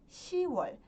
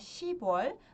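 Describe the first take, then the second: First: No p sound is heard before wol. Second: A p sound is heard before wol. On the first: The speaker calls it right. "nós falamos e escrevemos" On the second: The speaker calls it wrong. "Ao invés de falar"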